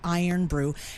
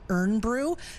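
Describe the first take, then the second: First: The first word sounds like 'iron'. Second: The first word sounds like 'earn'. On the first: The speaker calls it right. "It's actually Iron brew" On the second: The speaker calls it wrong. "I've always pronounced it Earn brew. They told me that's incorrect"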